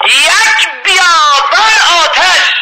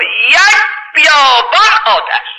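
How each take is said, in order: First: High, slow, drawn-out cry of horror; awestruck cry. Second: High, slow, drawn-out dread; dramatic awe. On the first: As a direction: cry out the desert of fire. Preacher repeats vision, heightened. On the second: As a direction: paint a desert of fire, slowly. Preacher dramatizes vision of hell. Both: Acted.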